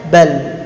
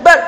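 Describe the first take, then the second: First: "bal" with a medium L; half-held L. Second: "bal" very short, the L blocked; fully stopped L. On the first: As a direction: let the L of "bal" sound briefly, neither blocked nor drawn out. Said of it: "lam ini tawasud". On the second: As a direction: cut "bal" dead. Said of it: "suaranya tertahan". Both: Shown as a demonstration.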